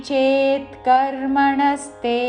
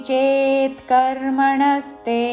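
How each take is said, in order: No difference in how they are said.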